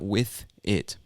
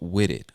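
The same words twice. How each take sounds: First: The th sound is pronounced fully. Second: The th becomes a soft d sound. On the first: "not with it" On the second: "the T H becomes a soft D sound"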